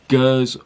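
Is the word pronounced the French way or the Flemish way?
French. It is pronounced the French way.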